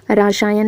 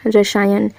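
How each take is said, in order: First: रसायन said as 'raa-saa-yan'; mispronounced word. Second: रसायन said as 'ra-saa-yan'; corrected pronunciation. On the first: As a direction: stretch the first vowel of रसायन to 'aa'. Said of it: "रसायन नहीं". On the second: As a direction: keep the first vowel of रसायन short. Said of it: "क्या होगा, रसायन". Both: Shown as a demonstration.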